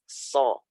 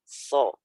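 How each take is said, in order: Both takes have the same delivery.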